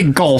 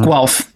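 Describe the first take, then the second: First: The word starts with a plain g, like gulf. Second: The word starts with a gw sound, like gwelf. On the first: The speaker calls it wrong. "I used to say Gulf" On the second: The speaker calls it right. "It's mm-hmm. Guelph. Yep"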